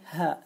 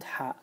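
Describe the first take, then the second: First: The h is a light, plain breath. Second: The h is a strong, raspy throat sound. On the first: The speaker calls it wrong. "If you read it in English, you will say ha" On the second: The speaker calls it right. "not ha"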